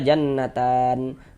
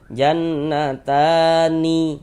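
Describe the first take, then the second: First: The word ends on a silent n, no vowel. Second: The word ends with a vowel after the n. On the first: The speaker calls it right. "kalau berwakaf di huruf nun kita baca jannatan" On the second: The speaker calls it wrong. "Jangan dibaca jannatani"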